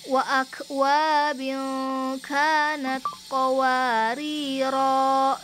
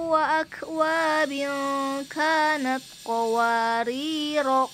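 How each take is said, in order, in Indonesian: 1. Vokal akhir dari qawarira dibaca panjang. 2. Vokal akhir dari qawarira dibaca pendek. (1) "Kalau berhenti dia baca panjang" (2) "kalau misalkan kita wasol atau kita mau lanjut ke ayat ke enam belas-nya, maka dibaca pendek"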